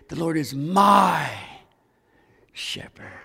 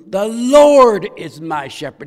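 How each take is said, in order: First: The stress falls on the word my. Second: The stress falls on the word Lord.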